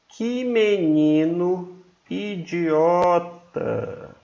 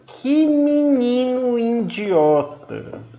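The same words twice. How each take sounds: First: It is said in a calm, neutral way. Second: It is said angrily with strong nasal sounds. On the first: "Você falaria normalmente" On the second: "Você já está com raiva"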